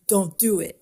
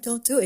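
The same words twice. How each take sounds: First: It is said in a cool, Fonzie-like way. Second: It is said in a plain, ordinary way.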